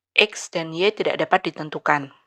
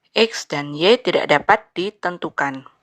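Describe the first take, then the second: The two takes are said the same way.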